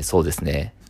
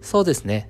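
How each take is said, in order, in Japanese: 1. 低くて落ち着いた声です。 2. 高くて明るい声です。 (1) "そうですねじゃなくて" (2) "1 か2 トーン高く"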